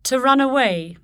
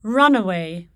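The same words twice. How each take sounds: First: "To run away" as a verb, weight on aWAY; stress on particle. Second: "Runaway" as one noun, RUN-away; stress on first element. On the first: Teacher shows the verb construction, "To run away" stressed on aWAY. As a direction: keep "away" strong in "To run away". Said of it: "corresponding verb construction". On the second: Teacher shows the noun, "Runaway" stressed on RUN. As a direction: hit RUN in "Runaway", let the rest fall. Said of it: "differ in stress". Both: Shown as a demonstration.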